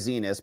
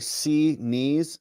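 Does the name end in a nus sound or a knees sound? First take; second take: nus; knees. First: The name ends with a short nus sound. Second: The name ends with a long knees sound. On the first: The speaker calls it wrong. "we like to say Zenas" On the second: The speaker calls it right. "when her court clerks say"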